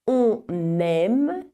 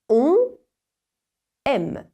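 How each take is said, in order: First: An n sound links the two words together. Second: The words are said apart with no linking sound. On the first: "les mots unis se prononcent avec ce phonème" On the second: "s'ils sont pris séparément, eh bien ces mots se prononcent sans ce phonème supplémentaire"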